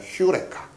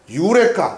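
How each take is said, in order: First: The word starts with an h sound. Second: The word starts directly with a vowel sound. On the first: The speaker calls it right. "번역 발음을 제대로 하면 휴레카예요" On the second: The speaker calls it wrong. "유레카가 사실 유레카가 아니라"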